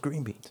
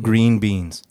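First: The word green is strongly emphasized. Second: The word green has no special emphasis.

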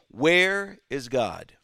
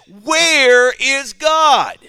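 First: It is said sternly at moderate volume. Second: It is said sternly and loudly.

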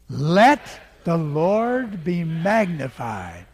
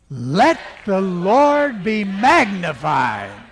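First: It is said louder than before. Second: It is said very loudly.

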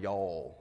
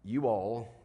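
First: It is contracted into one syllable. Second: It is said as two full words. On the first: This is the southern way of saying it. "one southern" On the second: This is the northern way of saying it. "one northern"

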